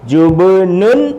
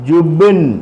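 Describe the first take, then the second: First: The word ends with an -un sound. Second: The word ends on a bare consonant. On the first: This is the written form with the ending. "ഇവിടെ ജുബ്നുൻ എന്നുള്ളത്" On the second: This is the form used when stopping at a full stop. "ഫുൾ stop ആയതുകൊണ്ട് ... സുക്കൂൻ കൊടുത്ത് സ്റ്റോപ്പ്"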